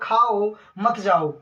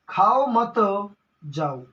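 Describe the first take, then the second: First: The pause comes right after the first word. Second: The pause comes right after the second word. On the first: Eat, don't leave. The speaker calls it right. "आपने बोल दिया खाओ मत जाओ" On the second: Don't eat, leave. The speaker calls it wrong. "लेकिन गलती से आपके मुंह से भैया निकल गया खाओ मत"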